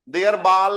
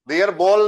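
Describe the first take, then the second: First: Ball has an open German 'ah' vowel. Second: Ball has an English-like 'aw' vowel. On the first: The speaker calls it right. "है। ... अंग्रेजी नहीं पढ़ रहे हैं मित्रों, जर्मन पढ़ रहे हैं" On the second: The speaker calls it wrong. "नहीं है"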